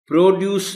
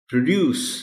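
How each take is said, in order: First: The first vowel is a full oh sound. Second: The first vowel is a short uh sound. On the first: The speaker calls it wrong. "प्रोड्यूस नहीं" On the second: The speaker calls it right. "ओ sound जो है ये change हो जाएगी pronunciation में अ sound में"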